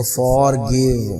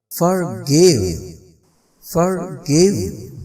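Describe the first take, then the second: First: Forgive with a long full "or" in for; slow, unreduced for in forgive; full first vowel. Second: Forgive with schwa in for, stress on give; weak "fer", strong falling give in forgive; end-stressed forgive with short for; reduced first syllable. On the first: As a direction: forgive drawn out as FOR-GIVE. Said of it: "अब ये नहीं कहना". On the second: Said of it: "for नहीं कहेंगे". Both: Shown as a demonstration.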